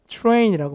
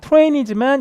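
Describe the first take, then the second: First: It begins with a ch-like sound. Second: It begins with a plain t sound. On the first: "요즘 거의 뭐라고 한다? 트레인이라고 많이 하고"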